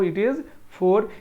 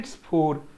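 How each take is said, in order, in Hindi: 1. It और is शब्द अलग-अलग बोले जाते हैं। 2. It और is मिलकर एक ही अक्षर बन जाते हैं।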